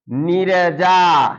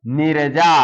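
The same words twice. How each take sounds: First: Drawn out, slightly louder; slow read-aloud. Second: Said in the usual way. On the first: Shown as a demonstration. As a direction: sound it out slowly for the class. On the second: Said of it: "क्या है".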